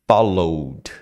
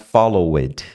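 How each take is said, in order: First: The final D joins straight onto 'follow'. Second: The final D is not joined straight onto 'follow'. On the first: The speaker calls it right. "Você sai do follow e entra no D" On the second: The speaker calls it wrong. "Não é followed"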